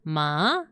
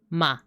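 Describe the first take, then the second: First: The pitch dips down then rises. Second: The pitch falls downward. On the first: "it's like a U shape" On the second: "this one goes down"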